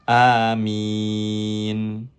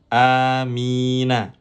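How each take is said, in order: First: The word ends on a bare n, long vowel before. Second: The final n is followed by a short a vowel. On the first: The reader stops at this word. "ketika kita berhenti di situ atau waqaf, maka nun ... dibaca menjadi sukun" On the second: The reading continues without stopping. "asalnya amina"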